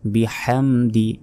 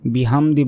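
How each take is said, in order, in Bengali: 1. h হল গলা থেকে আসা গভীর, শ্বাসযুক্ত ধ্বনি। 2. h হল সাধারণ, হালকা h ধ্বনি। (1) "এখানে বড় হা।" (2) "বিহামদি বললে কিন্তু ভুল হবে।"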